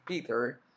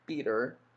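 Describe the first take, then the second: First: It is said in an American accent. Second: It is said in an American accent.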